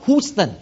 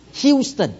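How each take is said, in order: First: "Houston" as HOOS-ton, without the y; wrong pronunciation. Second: "Houston" as HYOOS-ton, opening like Hugh; correct pronunciation. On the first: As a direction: say "Houston" with a bare oo vowel. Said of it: "not Houston". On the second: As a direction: start "Houston" high with a hyoo sound. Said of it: "H O U call Hugh". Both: Shown as a demonstration.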